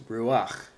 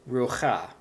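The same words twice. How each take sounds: First: Ruach as ROO-akh, ending on throaty kh; vowel before chet. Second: Rucha as roo-KHAH, ending on the vowel; wrong consonant-first reading. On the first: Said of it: "I pronounced this ruach". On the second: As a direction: put the throaty kh before the final ah in rucha. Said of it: "I did not pronounce this as". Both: Shown as a demonstration.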